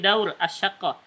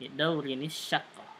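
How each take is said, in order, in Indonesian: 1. Bunyi n di akhir dihilangkan sama sekali. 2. Bunyi n langsung tersambung ke kata berikutnya. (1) "disukunkan semuanya" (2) "dibacanya tambah nun wasal ya"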